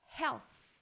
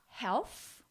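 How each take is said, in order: First: It ends with an s sound. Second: It ends with an f sound. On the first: "or health with an S sound" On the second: "not health with an F sound"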